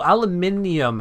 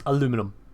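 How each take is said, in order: First: The word is said with five syllables. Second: The word is said with four syllables. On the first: The speaker calls it right. "aluminium has too many syllables" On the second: The speaker calls it wrong. "it slightly hurts to hear it"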